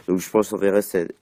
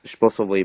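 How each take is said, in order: First: "enverrer" stumbled out, the verb garbled instead of "envoyer"; slip of the tongue. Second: "envoyer" said cleanly and correctly this time; self-correction. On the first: Vlogger sending his video to channels, garbles "enverrer". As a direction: trip over "enverrer" in passing, a verbal slip. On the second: Vlogger corrects himself, says "envoyer" right. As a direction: fix the word, say "envoyer" properly. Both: Real, not acted.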